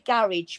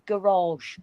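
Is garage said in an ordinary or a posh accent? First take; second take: ordinary; posh. First: It is said in an ordinary British accent. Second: It is said in a posh British accent.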